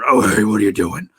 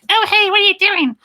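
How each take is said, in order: First: It is said in a lowered, deep pitch. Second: It is said in a raised, high pitch. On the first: "or low pitch" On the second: "make them high pitch"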